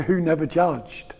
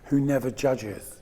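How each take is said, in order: First: "judged" ending in a crisp d, said slowly; who never "judged", slow and pointed; past tense judged. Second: "judges" ending clearly in -es, said slowly; who never "judges", slow and soft; present tense judges. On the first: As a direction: clip "judged" short on its final d. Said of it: "And they changed it to". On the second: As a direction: give "judges" its full second syllable. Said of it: "This book is dedicated to". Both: Retold or imitated.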